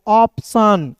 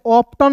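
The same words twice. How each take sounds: First: Clearly separated "ऑप्शन" ending in "san"; correct reading. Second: "ऑप्टन" with a hard T; beginner's mistaken "ऑप्टन", T pronounced; wrong reading. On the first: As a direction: model "ऑप्शन" for learners. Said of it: "तो क्या हो जाएगा". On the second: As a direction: say the TION in "ऑप्टन" as "tan". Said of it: "ऑप्टन नहीं पढ़ेंगे". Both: Shown as a demonstration.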